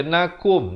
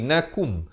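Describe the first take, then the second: First: "nakum" said as na-kom; wrong O vowel. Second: "nakum" said as na-koom, short rounded u; correct U vowel. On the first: Teacher warning of misreading, "nakum" as nakom. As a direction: say "nakum" with an open o in the last syllable. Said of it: "Jangan baca nakum". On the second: Teacher correcting readers, "nakum" with clear U. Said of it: "Kaf baris dhammah bunyi ku". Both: Shown as a demonstration.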